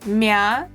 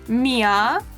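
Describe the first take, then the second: First: The 'ee' sound is cut very short. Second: A full 'ee' sound comes before the vowel. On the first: "then reduce it to mя" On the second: "You can start with mia"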